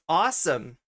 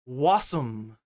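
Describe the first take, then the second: First: The word begins with an open 'aw' vowel. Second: The word begins with a 'w' sound. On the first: The speaker calls it right. "The one English word we tried to teach her was awesome" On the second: The speaker calls it wrong. "the best she got as far as pronunciation was wasum"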